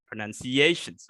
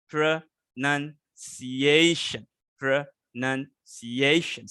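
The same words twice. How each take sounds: First: "pronunciations" in one go, weight on "ciation"; stress on CIATION. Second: Very slow "Pronunciation", pausing between pro, nun, ciation; syllable by syllable. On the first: Teacher shows the word is not flat, stressed "pronunciations". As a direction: say "pronunciations" unbroken, leaning on its "a". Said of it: "it's, it's not flat". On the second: Teacher shows class syllables, "Pronunciation" slowly split up. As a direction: break "pronunciation" into slow parts, stretching "ciation". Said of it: "you know syllables?". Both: Shown as a demonstration.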